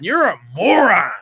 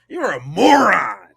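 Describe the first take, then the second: First: It is said in a plain, casual way. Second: It is said firmly, with authority.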